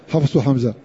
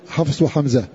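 No difference in how they are said.

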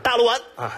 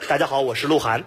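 First: Syllables are swallowed and slurred together. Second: Every syllable is pronounced clearly.

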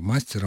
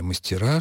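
First: The stress is on the first syllable. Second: The stress is on the last syllable. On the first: It is a singular case form. "в единственном числе основа сохраняет на себе ударение" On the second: It is the plural form. "во множественном числе ударение переходит на окончание"

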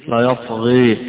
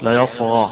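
First: The final vowel leans fully toward e. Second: The final vowel is a fully open a.

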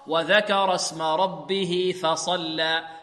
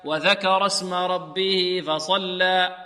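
First: The f sound is breathy and voiceless. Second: The f sound is given some voicing. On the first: The speaker calls it right. "فصلى مهموس الفاء" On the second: The speaker calls it wrong. "البعض يعطي الفاء شيء من ماذا؟ شيء من الجهر، هكذا يقول"

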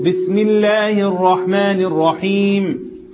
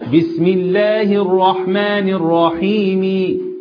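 First: The final vowel is dropped completely. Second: The final vowel is pronounced fully. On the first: The speaker calls it right. "احنا الوقف لازم يكون بايه؟ بالسكون" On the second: The speaker calls it wrong. "لو أنا هنطق الكسرة كاملة ... وده غلط طبعا"

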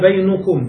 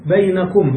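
First: The vowel after the n is u. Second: The vowel after the n is a. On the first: The word takes a subject case ending. "لقلنا بينكم بالضم" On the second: The word keeps a fixed ending. "بين مبنية هنا لأنها مضافة إلى ماذا؟"

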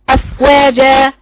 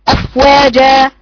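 No difference in how they are said.

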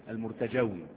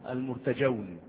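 No difference in how they are said.

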